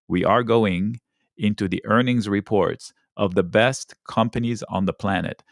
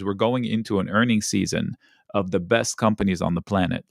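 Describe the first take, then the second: First: It is said slowly and deliberately. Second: It is said at a normal speed.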